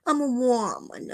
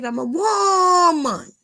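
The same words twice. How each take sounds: First: Said in the usual way. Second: High, loud, drawn-out mock wail; hammed-up cry of I'm a woman; dramatic wail. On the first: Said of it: "repeats the line plainly". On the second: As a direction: wail it like a wounded diva. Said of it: "mock dramatic outburst about herself".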